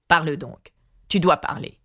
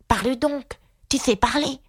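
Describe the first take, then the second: First: King's firm order in a natural pitch; exclaiming king. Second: High, impatient character voice. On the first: The king orders silent Atta to talk, commanding. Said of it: "s'écria le roi". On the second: Aïga urges silent Atta to talk, impatient. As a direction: press for an answer, pitched well up. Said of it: "s'écria Aïga d'un ton impatienté". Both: A narrator's reading.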